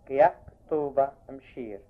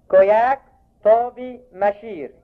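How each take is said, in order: First: كياك، طوبة said fast and low, مشير fading away; everyday Egyptian form; colloquial names. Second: كوياك said as koyak, طوبي as tobi, raised; old Bohairic names. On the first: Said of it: "باللهجة العامية". (النطق العامي: كياك، طوبة، مشير بسرعة وبصوت منخفض) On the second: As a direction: clear teacher's model of كوياك، طوبي، مشير. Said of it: "انكسوف مرة تانية". (اللفظ البحيري: كوياك، طوبي، مشير) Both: Shown as a demonstration.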